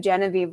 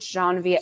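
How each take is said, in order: First: The name is said with an American pronunciation. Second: The name is said with a French pronunciation. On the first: This is how a reader of the books would say it. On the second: This is how the audiobook said it.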